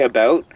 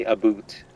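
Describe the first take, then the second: First: About said with an ou as in out; about said with American ou. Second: About said as a boot, with an oo vowel; Canadian a boot. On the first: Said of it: "Americans say about". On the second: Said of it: "Canadians say a boot". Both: Shown as a demonstration.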